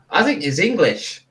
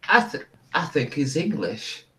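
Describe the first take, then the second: First: Put-on higher, more confident Australian accent; Australian character voice, pitched up; recovered Australian accent. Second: Put-on wobbly, half-found Australian accent; unconvincing Australian accent, a bit soft; botched Australian accent. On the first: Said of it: "I think I've got it again". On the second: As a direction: attempt an Australian accent and miss. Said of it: "That's not my best Australian accent".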